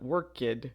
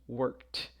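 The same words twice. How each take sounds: First: The ending is not pronounced as a t. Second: The ending is pronounced as a t sound. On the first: The speaker calls it wrong. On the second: The speaker calls it right. "we would pronounce that as a T"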